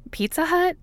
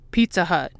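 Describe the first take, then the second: First: "Pizza Hut" pitched far higher, disbelieving; incredulous question. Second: Said in the usual way. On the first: A narrator's reading. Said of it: "Scully asks". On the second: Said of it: "Fox thinks about it".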